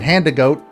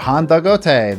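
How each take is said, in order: First: The ending sounds like the English word goat. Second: The ending has two syllables, go and te. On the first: The speaker calls it wrong. "I have been going for ten years calling it Handagoat" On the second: The speaker calls it right. "meant to be pronounced as if you're speaking Japanese"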